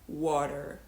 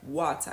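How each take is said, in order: First: The middle T becomes a soft D. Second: The middle T is pronounced fully. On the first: "an American is more likely to say water" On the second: "A British native speaker is more likely to say water, really pronounce the T fully"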